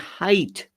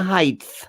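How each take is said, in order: First: The word ends with a plain T sound. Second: The word ends with a TH sound. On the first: The speaker calls it right. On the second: The speaker calls it wrong.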